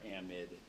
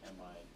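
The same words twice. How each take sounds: First: "amide" ending in a short "id"; short-i pronunciation. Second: "Amide" ending like "eyed"; long-i pronunciation. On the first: Teacher offers the other common pronunciation, short-i "amide". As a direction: say "amide" with last syllable like "mid". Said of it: "both pronunciations are common". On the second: Teacher reads out the term for a student, long-i "Amide". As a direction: say "Amide" to rhyme with chloride's ending. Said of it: "because it's like chloride, bromide". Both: Shown as a demonstration.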